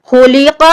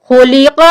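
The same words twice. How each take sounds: The two takes are said the same way.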